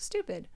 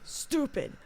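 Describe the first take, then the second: First: It is said plainly, in an ordinary way. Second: It is said in his exaggerated, drawn-out way.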